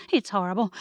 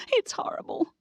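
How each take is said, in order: First: Said in the usual way. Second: Very high, breathless whispered wail; terrified whisper. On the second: Acted. Amelia, after shrieking about the spiders, in a very high terrified whisper. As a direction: gasp it out in horror.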